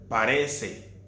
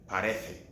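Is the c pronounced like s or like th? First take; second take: s; th. First: It has a Latin American s sound. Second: It has a Spanish th sound.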